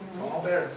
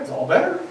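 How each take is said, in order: First: Very soft, "better" falling away; hushed echo. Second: "better" lifted high in a sing-song mom tone; mock mom soothing. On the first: Retold or imitated. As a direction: let it drop to almost nothing. Echo of mom line. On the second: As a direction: coo it like a mom fixing a scratch. Mom soothing after Band-Aid.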